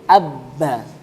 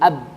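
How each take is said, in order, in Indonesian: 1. Huruf b-nya tasydid, diikuti huruf vokal. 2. Huruf b-nya sukun, menutup suku kata. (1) "atau ditasdidkan" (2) "ini yang disukunkan dulu"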